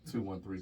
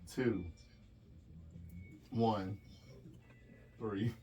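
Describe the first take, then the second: First: The digits are said quickly together. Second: The digits are said slowly, one by one.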